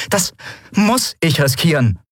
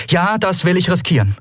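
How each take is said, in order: First: Muss set off by a pause and emphasised; stress on muss. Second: Said in the usual way. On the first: A narrator's reading. Endriel corrects herself to Kero, stressing muss. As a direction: lean hard on muss, high in pitch.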